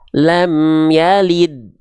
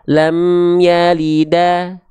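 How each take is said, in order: First: The last word ends on a bare 'd' consonant. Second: The last word ends with an 'a' vowel. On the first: The speaker calls it right. "tapi dia dibaca lam yalid" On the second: The speaker calls it wrong. "nggak dibaca lam yalida"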